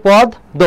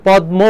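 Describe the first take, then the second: First: পদ্ম said 'pɔd-do', m silent; সঠিক উচ্চারণ. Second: পদ্ম said 'pɔd-mo', m sounded; অনেকের ভুল উচ্চারণ. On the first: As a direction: open first vowel and doubled d in পদ্ম. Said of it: "এটা কি হবে". (পদ্ম-কে 'পদ্-দোঁ', ম ছাড়া) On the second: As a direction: pronounce the m clearly in পদ্ম. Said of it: "অনেকে পদ্ম উচ্চারণ করে". (পদ্ম-কে 'পদ্-মো', ম স্পষ্ট) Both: Shown as a demonstration.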